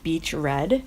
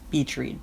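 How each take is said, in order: First: The vowel in 'read' is short, like 'bed'. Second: The vowel in 'read' is long, like 'seed'. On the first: "R E A D could be red" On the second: "because you're reading on the beach"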